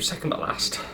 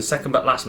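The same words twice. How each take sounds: First: Softer, half-voiced echo of SECOND BUT LAST; hushed repeat. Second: Said in the usual way. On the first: Real, not acted. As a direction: say "second but last" under your breath. Repeats it under his breath.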